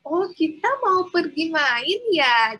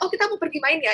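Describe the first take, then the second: First: The sentence is spoken slowly and clearly. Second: The sentence is spoken at a quick pace. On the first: It is said to a small child. "pelankan cara bicaranya" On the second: It is said to an adult. "Kalau ngomong ke orang dewasa"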